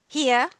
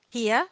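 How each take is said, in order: No difference in how they are said.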